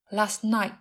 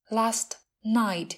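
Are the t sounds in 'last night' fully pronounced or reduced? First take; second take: reduced; fully pronounced. First: The first t is dropped, the second glottal. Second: Both t sounds are fully pronounced.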